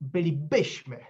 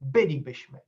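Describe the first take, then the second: First: The stress is on a later syllable. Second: The stress is on the first syllable. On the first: The speaker calls it wrong. "and not" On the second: The speaker calls it right. "pronounced with the stress on the first syllable"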